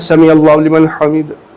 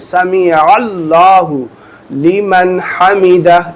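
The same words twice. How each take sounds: First: It is said fast and unclearly. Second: It is said slowly and clearly.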